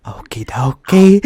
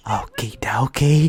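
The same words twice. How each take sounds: First: Said in the usual way. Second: Hushed, slow okie dokie; whisper. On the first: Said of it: "voiced take before whisper". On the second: Pretend. Laughing podcaster whispers okie dokie to cohost. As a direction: breathe it out in a whisper. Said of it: "whispered repeat".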